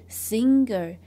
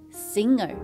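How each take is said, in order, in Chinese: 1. ng后面有一个硬g音。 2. ng后面没有硬g音。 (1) "不是singer" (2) "这个g 默默地存在着，不发音"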